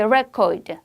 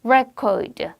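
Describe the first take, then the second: First: The stress is on the first syllable. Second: The stress is on the first syllable.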